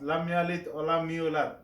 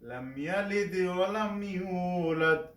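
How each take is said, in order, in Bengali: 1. শেষের d আওয়াজ সাধারণভাবে, কলকলা ছাড়া। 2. শেষের d আওয়াজে প্রতিধ্বনির মতো কলকলা আছে। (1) "কলকলা হরফ কলকলা না করে নর্মালভাবে উচ্চারণ করে" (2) "কলকলা করিয়া পড়তে হবে"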